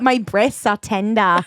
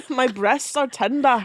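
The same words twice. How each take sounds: First: A slow light Australian twang; hint of an Australian accent. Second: A light Scottish burr, slowed; hint of a Scottish accent. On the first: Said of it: "That was more Australian". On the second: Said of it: "That was Scottish".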